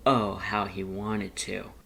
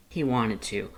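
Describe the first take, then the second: First: Slow, leaning hard on "Oh"; longing emphasis. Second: Said in the usual way. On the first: A narrator's reading. Narrator echoes how badly Lust wanted to laugh, slowly. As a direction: stretch out "Oh" and savor the longing.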